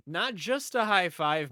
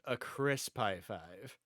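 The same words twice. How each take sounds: First: Said in the usual way. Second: Slow, with crisp drawn out and leaned on; a slow, relished crisp in crisp high five; stress on crisp. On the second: Shown as a demonstration. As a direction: savour the word crisp, slowly.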